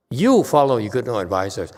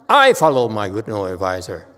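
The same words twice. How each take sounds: First: "You" stressed, the "you" set hard against the "I" that follows. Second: "I" stressed and louder, answering the "You" before it. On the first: Master telling the student to follow his own advisor, "You" stressed. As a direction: lean on "You follow your good no advisors" to point at the student. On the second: Master insisting he follows his own advisor, "I" stressed. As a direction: land hard on "I follow my good no advisor". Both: Shown as a demonstration.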